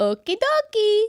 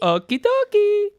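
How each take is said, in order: First: High slow cartoon plumber; Mario voice. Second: High, slow Mario chirp. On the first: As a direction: sing it out like Mario. Imitating Mario line. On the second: Retold or imitated. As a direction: stretch it out like Mario. Echoing Mario line.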